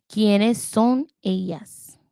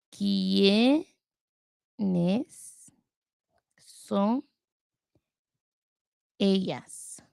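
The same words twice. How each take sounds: First: Said in the usual way. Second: Very slow, long pauses between quiénes, son, ellas; word by word. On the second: Real, not acted. Learner writing the phrase out to work on it, word by word. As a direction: draw out quiénes, then son, then ellas, each apart.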